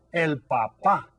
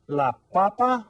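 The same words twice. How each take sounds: First: "papá" stressed on the final PÁ, as in father; stress on second syllable. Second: PAPA stressed on PA at the start, as in potato; stress on first syllable. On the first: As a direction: punch the last syllable of "papá". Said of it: "stress the second syllable". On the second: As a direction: punch the first syllable of "papa", raised and loud. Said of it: "stress that first syllable". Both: Shown as a demonstration.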